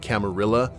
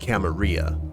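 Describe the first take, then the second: First: It is pronounced the English way. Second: It is pronounced the Spanish way.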